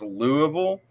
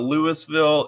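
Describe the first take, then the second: First: It is said with the local Kentucky pronunciation. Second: It is said with a French-style pronunciation. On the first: This is how the city's name is actually said locally. "it's Louisville" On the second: This is how the name would be said following French. "Louisville is intentionally not Louisville"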